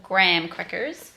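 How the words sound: It is said in an American accent. "as they say over here"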